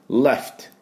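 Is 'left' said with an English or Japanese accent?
English. It is said with English sounds and a short f. The speaker calls it right.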